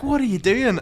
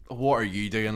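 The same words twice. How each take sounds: First: Higher, louder challenge; mock angry lad. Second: Said in the usual way. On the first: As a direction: bristle at him. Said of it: "he was like". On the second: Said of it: "And I goes".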